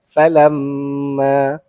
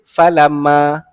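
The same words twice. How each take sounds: First: The nasal m is held moderately. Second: The nasal m is cut short. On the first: The speaker calls it right. "mesti dengung" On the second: The speaker calls it wrong. "tak boleh baca pendek"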